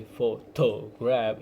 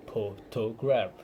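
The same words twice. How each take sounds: First: Photograph with stress on the wrong syllable, pho-TO-graph; slow, mis-stressed photograph; misplaced stress. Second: Photograph stressed on first syllable, PHO-to-graph; slowly, PHO leading in photograph; correct stress. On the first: Retold or imitated. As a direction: imitate learners stressing TO in photograph. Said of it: "place the stress incorrectly". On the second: Shown as a demonstration. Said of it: "instead of pho".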